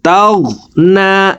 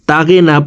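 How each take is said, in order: First: The g runs straight into the n. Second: An extra vowel separates the g and n. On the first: The speaker calls it right. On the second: The speaker calls it wrong.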